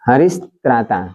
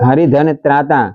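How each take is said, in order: First: The first word ends in an sh sound. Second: The first word ends in a breathy h sound. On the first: The speaker calls it right. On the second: The speaker calls it wrong.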